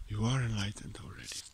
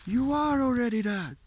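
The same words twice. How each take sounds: First: Breathy, soft, toneless whisper of the same truth. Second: Said in the usual way. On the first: Shown as a demonstration. Teacher whispering the truth to the seeker, in a whisper. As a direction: let the words fall to a hush. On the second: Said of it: "teacher repeats phrase, then whispers".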